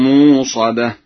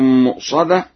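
First: A long vowel replaces the glottal stop. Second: A glottal stop follows the first M.

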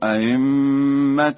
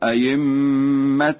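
First: The second hamza is softened between hamza and ya. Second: The second hamza becomes a full ya sound. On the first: "بتسهيل الهمزة الثانية بين" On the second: "أو إبدالها ياء خالصة"

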